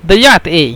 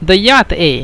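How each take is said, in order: Both takes have the same delivery.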